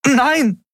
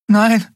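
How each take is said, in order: First: High, desperate exclamation; crying out. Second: High-pitched, horrified no; stunned. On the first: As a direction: cry out in protest, pitched way up. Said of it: "rief sie wieder aus". (hoher, verzweifelter Ausruf) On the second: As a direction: barely get the word out, high in shock. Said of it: "war alles, was sie hervorbringen konnte". (entsetzt, mit hoher Stimme hervorgebracht) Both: A narrator's reading.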